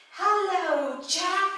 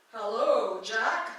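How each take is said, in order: First: High, loud British woman's voice; female heavenly voice. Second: Louder voice from above, in the speaker's own register; usual heavenly voice. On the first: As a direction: sing out from above as a British lady. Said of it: "we're gonna do a female". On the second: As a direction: call down as a voice from the sky. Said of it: "And usually it's a". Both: Acted.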